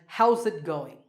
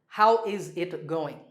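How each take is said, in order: First: The word 'is' is contracted onto 'how'. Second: The word 'is' is said fully and separately. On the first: The speaker calls it right. "we pronounce this as" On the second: The speaker calls it wrong. "Do not say"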